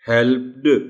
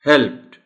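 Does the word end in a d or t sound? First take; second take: d sound; t sound. First: The word ends with a d sound. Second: The word ends with a t sound. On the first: The speaker calls it wrong. "डी को डी के तौर पर ही बोलना है तो मुश्किल हो जाएगी" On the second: The speaker calls it right. "आखिर में टी की आवाज हल्की सी पैदा होती है"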